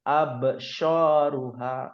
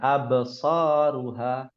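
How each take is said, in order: First: The middle consonant sounds like sh. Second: The middle consonant is a heavy s sound. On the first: The speaker calls it wrong. "Seakan-akan dia ada shinnya" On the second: The speaker calls it right. "yang betul so absaruha"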